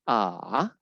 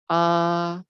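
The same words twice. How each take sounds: First: The pitch dips down, then rises again. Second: The pitch stays level and flat. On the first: "dia akan turun dulu boleh lagi" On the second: "untuk yang strip itu datar ya"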